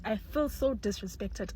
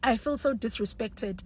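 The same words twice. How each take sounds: First: Slow and much softer repeat; resigned, soft. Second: Slow, emphatic "so"; indignant, slow. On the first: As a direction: let it fade in resignation. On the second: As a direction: lean on "so" in wounded indignation. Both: Real, not acted.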